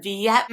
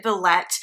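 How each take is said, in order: First: Villette with a silent L, vee-ET; French-style pronunciation. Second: Villette with the L sounded, vuh-LET; Anglicized pronunciation. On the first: Theatergoer contrasts her friend's French way, Villette as vee-ET. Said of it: "instead of Villette". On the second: Theatergoer shows the theater's pronunciation, Villette with a sounded L. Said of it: "they do pronounce it Villette instead of". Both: Shown as a demonstration.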